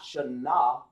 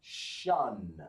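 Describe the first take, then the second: First: "shana" split into two syllables, sha-NA; two separate sounds. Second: "Shun" in one drawn-out syllable, pitch falling; one joined sound. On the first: Teacher showing what not to say, "shana" in two syllables. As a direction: slowly sound out "shana" with an open a ending. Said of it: "You don't want to say that". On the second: Teacher repeating the joined sound for the class, "Shun" as one syllable. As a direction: say "Shun" low and long, sh gliding straight into n. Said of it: "making them one sound". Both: Shown as a demonstration.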